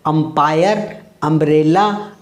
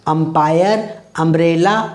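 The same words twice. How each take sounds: The two takes are said the same way.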